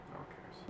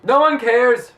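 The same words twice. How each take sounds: First: Whispered under breath. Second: Loud high yell; shout. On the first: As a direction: breathe it out, voiceless. Whispered aside then yelled. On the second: Yelled right after whisper. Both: Real, not acted.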